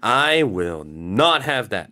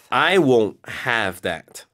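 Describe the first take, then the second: First: The negative is said as a separate word, not. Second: The negative is contracted into won't. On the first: The refusal is given extra emphasis. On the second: A firm refusal said in the usual way.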